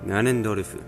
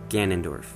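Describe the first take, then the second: First: It is said with Japanese sounds, ending in fu. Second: It is said with English sounds, ending in f. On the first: "his Japanese name is Ganondorfu" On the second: "It's Ganondorf"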